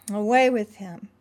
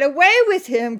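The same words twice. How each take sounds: First: Said in the usual way. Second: Loud, higher shout; crying out. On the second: Acted. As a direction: fling it out like a mob. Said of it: "they cried out".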